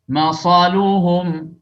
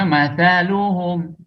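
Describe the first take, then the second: First: The middle consonant is an s sound. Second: The middle consonant is a th sound. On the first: The speaker calls it wrong. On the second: The speaker calls it right.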